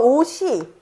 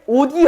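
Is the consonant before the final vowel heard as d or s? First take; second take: s; d. First: An s sound links into the final vowel. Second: A d sound links into the final vowel. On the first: The speaker calls it right. "음절의 끝소리 규칙을 적용하지 않고 연음만 해주어서" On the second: The speaker calls it wrong. "여기에도 음절의 끝소리 규칙을 적용하면은"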